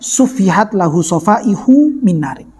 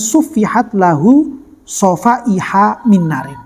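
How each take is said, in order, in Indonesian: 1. Kata sofaih- diakhiri dengan vokal 'u'. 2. Kata sofaih- diakhiri dengan vokal 'a'. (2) "harusnya lafadz hadis ini dibaca dengan"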